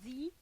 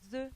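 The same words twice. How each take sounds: First: It uses the form said before vowel sounds. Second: It uses the form said before consonant sounds. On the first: "se prononcera the devant un mot commençant par un son voyelle" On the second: "Il se prononcera the devant un mot commençant par un son consonne"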